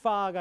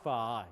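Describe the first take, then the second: First: 파가 with a Korean p; 파가 said with a puffed p. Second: 파 said as an English f, teeth on lip; 파 as fa with lip friction; English f sound. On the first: (한국식 파 발음) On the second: (영어식 f 발음) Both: Shown as a demonstration. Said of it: "파가 아니라 뭐예요?".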